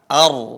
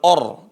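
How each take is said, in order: First: The opening vowel is thin, like a. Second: The opening vowel is thick, like o. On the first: The speaker calls it right. "tapi a, ar ya. ra-nya tetap tebal tapi hamzahnya tetap tipis" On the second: The speaker calls it wrong. "bukan or"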